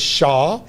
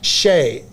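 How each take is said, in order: First: The name is said like 'shah'. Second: The name is said like 'shay'. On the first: The speaker calls it wrong. "been pronounced as Shah" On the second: The speaker calls it right. "the pronunciation is Shay"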